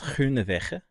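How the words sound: The name is pronounced with Dutch sounds. "the actual Dutch pronunciation is Groenewegen"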